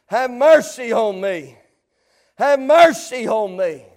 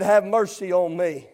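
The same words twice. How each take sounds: First: Repeated plea, lifted up out of the hush; rising plea. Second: Low, soft pleading; quiet plea. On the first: Preacher repeating the beggar's plea to the congregation, lifted pleading. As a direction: plead it out more openly, stretching mercy. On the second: Preacher recalling the beggar's plea that day, low and soft. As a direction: drop it to a low, subdued plea. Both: Acted. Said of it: "there was a plea that was given".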